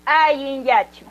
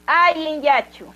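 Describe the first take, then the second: First: "Ayin yachu" said slowly again, the stress on "Ayin", the end falling; slow repeat. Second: "Ayin yachu" said slowly, syllable by syllable, with the stress on "Ayin" and a falling end; slow model greeting. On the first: Teacher asking the class to say it once more, slow and clear. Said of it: "De nuevo". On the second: Teacher leading the class in saying the greeting, slow and clear. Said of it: "Conmigo, por favor, desde aquí". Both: Shown as a demonstration.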